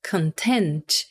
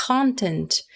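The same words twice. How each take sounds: First: "content" stressed on TENT, con-TENT; stress on second syllable. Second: "content" stressed on CON, CON-tent; stress on first syllable. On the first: Teacher modeling "content" as con-TENT. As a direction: say "content" with the weight on the last syllable. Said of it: "E a outra pronúncia é". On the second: Teacher modeling "content" as CON-tent. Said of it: "uma pronúncia possível é". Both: Shown as a demonstration.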